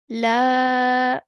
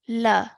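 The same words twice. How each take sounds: First: The vowel is long, held two beats. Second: The vowel is short, held one beat. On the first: "we are now going to say la for two counts" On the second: "one count um, timing over here because it's a simple fatha"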